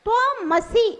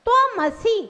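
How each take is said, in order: Both takes have the same delivery.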